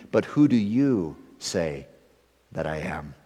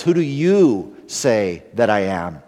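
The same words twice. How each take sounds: First: Said in the usual way. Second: "you" slightly stressed, slow, searching. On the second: Shown as a demonstration. Pastor pressing disciples' question on congregation, stressing "you". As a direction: lean on "you", slowly, asking them directly. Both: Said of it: "The emphasis here in Jesus' question is upon the disciples".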